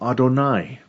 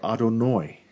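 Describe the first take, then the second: First: The word ends with an 'eye' sound. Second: The word ends with an 'oy' sound.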